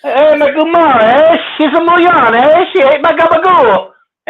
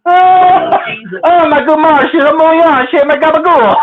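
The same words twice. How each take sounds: First: High Canadian singsong with "eh?" after each phrase; mock Canadian mobster. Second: High, giggly catchphrase with a hint of Canadian accent; Canadian-tinged mob catchphrase. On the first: Redoing his catchphrase for co-host, mock Canadian "eh". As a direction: ham up the Canadian accent on mob slang. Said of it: "throw a little A at the back end". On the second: Husband repeating silly mob slang to wife, slightly Canadian accent. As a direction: recite it high, lightly Canadian, tickled by it. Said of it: "You even say it with a Canadian accent".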